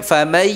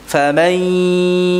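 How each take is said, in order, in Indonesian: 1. "Ya" diucapkan tanpa dengung sengau. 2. "Ya" diucapkan dengan dengung sengau yang ditahan. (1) "bukan famai, salah" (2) "yang disertai dengan dengung"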